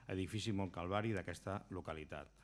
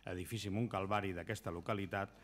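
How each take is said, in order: No difference in how they are said.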